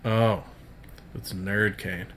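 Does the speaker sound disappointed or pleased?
disappointed. The phrase sounds flat and disappointed. The person is unhappy to see them. The speaker calls it wrong. "And don't say, like"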